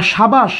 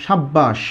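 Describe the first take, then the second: First: Said in the usual way. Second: "সাব্বাস" with a held double b, falling low; emphatic doubled consonant. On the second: Shown as a demonstration. Teacher repeats the emphatic form for students, "সাব্বাস" with doubled b. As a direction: hold the b in "সাব্বাস" before releasing it. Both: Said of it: "জোর দেওয়ার জন্য কী বলি".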